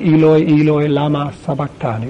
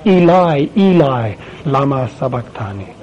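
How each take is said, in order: First: Eloi, Eloi, lama sabachthani in Aramaic, lama with open a; Aramaic pronunciation. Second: Eli, Eli, lama sabachthani in Hebrew, lama with a long ah; Hebrew pronunciation. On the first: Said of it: "Or in Aramaic". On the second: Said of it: "which is in Hebrew". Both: Shown as a demonstration.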